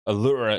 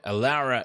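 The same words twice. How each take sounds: First: Said with the name's original, traditional sounds. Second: Said with the speaker's everyday English sounds. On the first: This is the name's proper form. "Allura is the proper technical pronunciation" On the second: This is the speaker's natural habit. "Allura is how I pronounce it"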